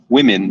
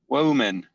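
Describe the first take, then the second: First: The first syllable sounds like 'wim'. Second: The first syllable sounds like 'woe'. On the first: The speaker calls it right. "instead of saying uh, women" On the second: The speaker calls it wrong. "say woe men"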